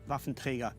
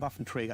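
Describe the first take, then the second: First: The word is said with German-style pronunciation. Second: The word is said with English-style pronunciation. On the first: The speaker calls it right. "That's the only way how to pronounce it" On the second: The speaker calls it wrong. "it sounds actually very odd to me"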